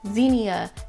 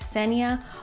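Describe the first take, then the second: First: The name starts without an S sound. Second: The name starts with an S sound. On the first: The speaker calls it wrong. "a lot of people over the years have called me" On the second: The speaker calls it right. "The X makes an S sound, so it's Xenia"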